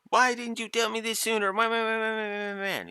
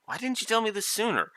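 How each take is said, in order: First: Very high, hammed-up whiny complaint trailing into babble; mock drama. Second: High, fast imitation of a brief complaint; quick passing reproach. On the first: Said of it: "there's no drama of". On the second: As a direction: toss off a quick, high little mock reproach. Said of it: "just a quick little".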